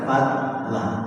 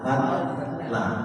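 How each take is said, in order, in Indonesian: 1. Konsonan di tengahnya terdengar tipis dan ringan. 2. Konsonan di tengahnya terdengar tipis dan ringan.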